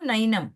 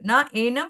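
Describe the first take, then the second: First: The two words are merged into one word. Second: The two words are said separately, unjoined. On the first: "ನೈನಂ ಆಯ್ತಾ?" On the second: "ನ ಏನಂ ನೈನಂ ಆಯ್ತಾ?"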